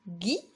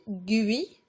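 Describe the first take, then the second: First: The u is silent after the g. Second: The u is sounded after the g. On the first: The speaker calls it right. "On a dit gui" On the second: The speaker calls it wrong. "on n'a pas dit gui"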